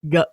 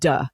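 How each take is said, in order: First: The consonant is made further back in the mouth. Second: The consonant is made further forward in the mouth. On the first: The speaker calls it right. "it's supposed to be more like a G, it's further back" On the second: The speaker calls it wrong. "rather than duh ... then f- like forward"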